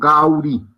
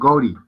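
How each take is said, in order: First: The first vowel glides from 'a' to 'u'. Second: The first vowel is a single plain 'o'. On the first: The speaker calls it wrong. "en su pronunciación angla te lo transliteran como Gauri" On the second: The speaker calls it right. "Pero se pronuncia es Gori"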